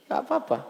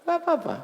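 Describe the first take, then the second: First: Squeaky high voice, shrugging it off; high mock Egyptian. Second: Even higher, squeakier shrug; high mock Egyptian. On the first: Preacher imitating a carefree Egyptian, high and light. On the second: Preacher mimicking an unbothered Egyptian, very high. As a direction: squeal it off as no big deal. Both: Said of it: "Gitu dia".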